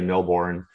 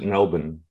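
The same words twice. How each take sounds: First: It is said the way North Americans say it. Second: It is said the way local residents say it. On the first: "Okay for North Americans to say Melbourne" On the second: "Melburnians pronounce it Melbourne"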